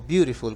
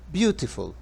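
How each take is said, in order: First: It is said in an American accent. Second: It is said in a British accent.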